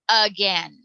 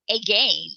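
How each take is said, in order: First: The first vowel is a weak 'uh' sound. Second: The first vowel is a long 'ay' sound. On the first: "We just say uh" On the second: "The A should be a long sound"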